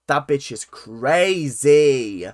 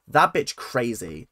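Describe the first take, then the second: First: "crazy" stretched out long and loud; slow, loud verdict landing on "crazy"; emphatic. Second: Said in the usual way. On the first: Real, not acted. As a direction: drag out both syllables of "crazy".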